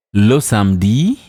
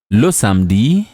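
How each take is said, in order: Both takes have the same delivery.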